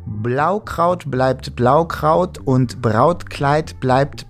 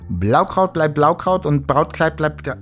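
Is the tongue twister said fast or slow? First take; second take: slow; fast. First: It is said at a slower, steady pace. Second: It is said at a faster, rushed pace. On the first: "In dem Tempo schaffe ich das" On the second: "wenn ich schneller machen soll"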